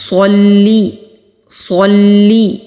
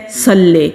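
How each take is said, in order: First: صلی with heavy saad, lam with kasra; correct pronunciation. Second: صلی with a thin seen instead of saad, lam without kasra; mispronounced example. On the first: Teacher repeats the correct صلی for students. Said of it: "اس کو پڑھتے ہیں". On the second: Teacher imitates the common mistake in صلی. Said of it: "صاد کی جگہ سین پڑھ دیتے ہیں". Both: Shown as a demonstration.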